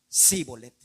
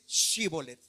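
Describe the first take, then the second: First: The word begins with an 's' sound. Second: The word begins with a 'sh' sound. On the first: The speaker is an outsider. The speaker calls it wrong. "sino que decían Sibolet" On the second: The speaker belongs to the group. The speaker calls it right. "ellos no podían decir Shibolet"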